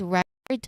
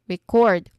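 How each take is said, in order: First: The stress is on the first syllable. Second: The stress is on the second syllable. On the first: A thing that was kept and preserved. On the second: The act of capturing sound or data.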